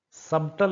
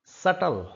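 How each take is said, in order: First: सबटल with the b sounded; the wrong सबटल. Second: सटल said as sut-tl; silent b. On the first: (गलत उच्चारण सबटल) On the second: (सटल, ब की आवाज़ के बिना) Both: Shown as a demonstration. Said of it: "सबटल नहीं है".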